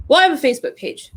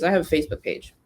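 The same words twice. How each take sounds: First: Fast, high mocking echo of "I have a Facebook page"; mocking repeat. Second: Quoting a client. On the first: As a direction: throw "I have a Facebook page" back at the client. Mocking the client's excuse. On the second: Retold or imitated. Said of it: "a lead of some sort that says".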